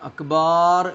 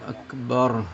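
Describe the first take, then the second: First: The second syllable has a long vowel. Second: The second syllable has a short vowel. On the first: The speaker calls it wrong. "അക്ബാർ എന്നൊന്നും പറയാൻ പാടില്ല" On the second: The speaker calls it right. "അല്ലാഹു അക്ബർ എന്ന് പറയാം"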